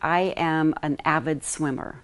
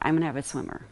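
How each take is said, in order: First: Each word is fully and carefully enunciated. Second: The words are contracted and run together. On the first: The speaker calls it right. "you want to enunciate your words" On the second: The speaker calls it wrong.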